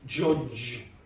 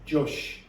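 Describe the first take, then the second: First: The word ends with a voiced j sound. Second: The word ends with a soft sh sound. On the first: The speaker calls it right. "What's the word?" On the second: The speaker calls it wrong. "what you're doing is jush"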